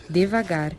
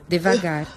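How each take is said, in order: Both takes have the same delivery.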